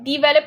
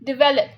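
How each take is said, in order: First: The first syllable has a long "dee" vowel. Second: The first syllable has a short, light vowel. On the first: The speaker calls it wrong. "बहुत ज्यादा डी नहीं बोलना develop नहीं बोलना" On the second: The speaker calls it right. "it's de"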